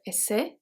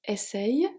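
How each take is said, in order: First: It ends without a y glide sound. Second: It ends with a y glide sound. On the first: "we don't have. We don't have the rolling E" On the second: "we have the rolling E"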